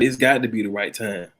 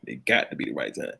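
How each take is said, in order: First: Said in the usual way. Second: Whispered repeat. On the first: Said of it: "repeated quietly". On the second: Real, not acted. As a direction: drop to a whisper. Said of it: "repeated as whisper".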